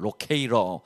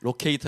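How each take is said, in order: First: The t is softened into a quick flap. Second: The t is pronounced as a clear hard t.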